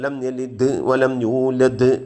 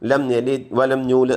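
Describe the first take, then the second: First: The final consonant is released strongly with an echo. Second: The final consonant is cut short without echo. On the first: The speaker calls it right. "അങ്ങനെ ഉച്ചരിക്കണം" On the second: The speaker calls it wrong. "അങ്ങനെ ഓതാൻ പാടില്ല"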